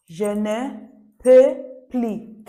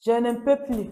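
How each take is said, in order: First: "Je ne... peux... plus" in separate slow pieces; slow breakdown. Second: "Je ne peux plus" in one connected, falling phrase; model pronunciation. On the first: French teacher breaking phrase down, "Je ne, peux, plus" slowly. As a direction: punch "peux" loudly, pauses either side. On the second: French teacher presenting last phrase, "Je ne peux plus" said connectedly. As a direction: say "Je ne peux plus" firmly, without breaks. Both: Shown as a demonstration.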